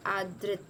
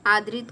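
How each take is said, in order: First: आदृत in two parts, aa-drit; corrected form. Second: आदरित in three parts, aa-da-rit; wrong form. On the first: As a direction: join d and r in आदृत. (आदृत में "दृ" जोड़कर बोलें) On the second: (आदरित में "दरित" बोलें) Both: Shown as a demonstration. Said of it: "आदरित का होता है आदृत".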